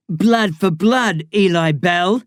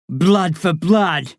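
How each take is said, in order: First: Very slow, solemn intoning; solemn oath. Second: Very slow, solemn chant; solemn oath. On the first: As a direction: intone the warrior's vow. Ritual oath repeated. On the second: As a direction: intone it like a warrior's vow. Ritual oath. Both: A narrator's reading.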